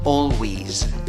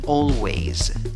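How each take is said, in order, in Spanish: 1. La sílaba final tiene una vocal 'ee'. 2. La sílaba final tiene una vocal 'ay'. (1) "con el sonido de la E con su sombrero, que es el equivalente a I larga" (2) "La A con el sombrero, según el diccionario Merriam-Webster, se pronuncia ey"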